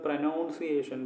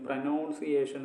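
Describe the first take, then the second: No difference in how they are said.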